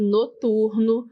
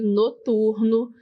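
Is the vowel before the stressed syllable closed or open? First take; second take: closed; closed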